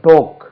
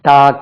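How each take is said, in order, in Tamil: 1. இந்த உயிரொலி 'aw' மாதிரி ஒலிக்குது. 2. இந்த உயிரொலி 'ah' மாதிரி ஒலிக்குது. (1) "அதுக்கு உச்சரிப்பேங்க டோக்" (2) "நம்ம எப்படி உச்சரிக்கிறோம்? டாக் என்று உச்சரிக்கிறோம்"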